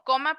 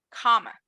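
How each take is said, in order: First: It is said with a Spanish accent. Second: It is said with an American English accent. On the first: "Como coma" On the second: "pero con acento gringo"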